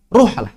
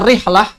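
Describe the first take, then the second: First: The first vowel is a u sound. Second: The first vowel is an i sound. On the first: "boleh dibaca ruhlah" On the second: "boleh dibaca rihlah"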